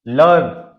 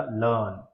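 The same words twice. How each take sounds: First: लर्न with a clear R, loud; American learn. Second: लर्न as लन, no R, soft; British learn. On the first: Teacher quizzing students with the American लर्न. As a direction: sound the R in लर्न. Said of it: "बताओ कौन सा है". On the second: Teacher giving students the British लर्न. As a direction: drop the R in लर्न. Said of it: "आर जो है वो एच का sound". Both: Shown as a demonstration.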